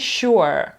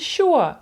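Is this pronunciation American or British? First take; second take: American; British. First: It is said in an American accent. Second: It is said in a British accent. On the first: "американці sure" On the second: "Британці sure"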